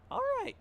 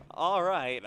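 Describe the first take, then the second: First: Voice crack. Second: Said in the usual way. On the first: Real, not acted. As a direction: voice breaking sharply up on "All right". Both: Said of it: "That was the worst voice crack ever".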